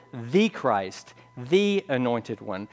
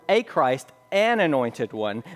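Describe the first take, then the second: First: THE said as "thee", punched; stress on THE. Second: A and AN singled out; stress on A and AN. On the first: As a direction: lean hard on each THE. Contrasts definite with indefinite article. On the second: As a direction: lean on the articles A and AN. Contrasts indefinite with definite article. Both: Shown as a demonstration.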